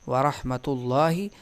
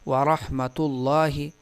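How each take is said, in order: Both takes have the same delivery.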